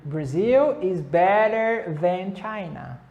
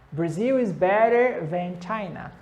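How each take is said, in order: First: Each word said slowly and clearly; slow model answer. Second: Said in the usual way. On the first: Shown as a demonstration. Teacher slowly models an answer for students to copy. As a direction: spell the answer out slowly for learners. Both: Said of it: "Aí você pode responder".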